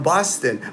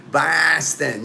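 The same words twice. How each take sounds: First: Said in the usual way. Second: Mock Boston accent with a broad, stretched a; Boston accent, long flattened first vowel. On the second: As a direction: imitate a Bostonian saying the city's name. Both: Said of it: "they talk like that".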